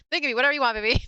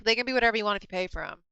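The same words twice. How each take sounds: First: Cheeky, teasing, a bit louder; flirty sales pitch. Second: Said in the usual way. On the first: Retold or imitated. Teasing a customer at her booth, cheeky and flirty. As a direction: sell it with a wink.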